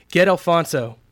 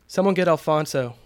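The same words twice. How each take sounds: First: Loud, high, urgent command; insistent shout, falling at the end; forceful order. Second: Raised, higher voice to a group; firm, moderately urgent call for help; urgent request. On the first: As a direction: order one worker sharply, at raised volume. Repeats the order, pointing at a worker. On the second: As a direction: call out an order to coworkers. Douglas orders coworkers to fetch help. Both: A narrator's reading.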